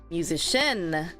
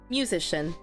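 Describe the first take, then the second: First: The stress is on the last syllable. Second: The stress is on the first syllable. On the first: "And in the end" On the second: "If I were to stress the first one"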